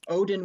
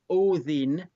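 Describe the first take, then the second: First: The name is said the usual English way. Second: The name is said the original Icelandic way.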